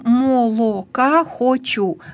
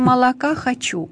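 First: The unstressed vowel is pronounced as a full o. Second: The unstressed vowel is reduced to a. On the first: The speaker calls it wrong. "Мы же не говорим" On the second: The speaker calls it right. "Мы говорим молока хочу. Потому что здесь действует закон редукции"

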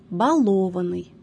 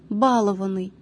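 First: The stress is on a later syllable. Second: The stress is on the first syllable. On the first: The speaker calls it right. "Правильными признаются только следующие варианты" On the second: The speaker calls it wrong. "формы с ударением на первом слоге, являются неправильными"

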